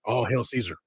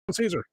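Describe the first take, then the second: First: Said in the usual way. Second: Caesar chanted much higher; high mock salute. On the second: Shown as a demonstration.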